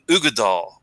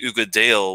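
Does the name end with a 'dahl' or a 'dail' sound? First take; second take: dahl; dail. First: The last syllable is said as a short 'dahl'. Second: The last syllable is said as 'dail'. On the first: The speaker calls it right. "in Scottish, you always just say Dal" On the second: The speaker calls it wrong. "you hear some people say Ugadail, which kind of throws me off"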